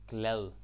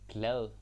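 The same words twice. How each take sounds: Both takes have the same delivery.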